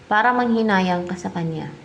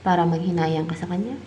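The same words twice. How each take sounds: First: Falling close on "kanya"; "kanya" brought down to a firm full stop; confirming statement. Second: Rising question on "kanya"; "kanya" left hanging upward as a question. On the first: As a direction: state it as the answer, pitch dropping on "kanya". Confirms the question just asked. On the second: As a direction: ask it, lifting the pitch at the end on "kanya". Asks the cards, then confirms. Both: Real, not acted.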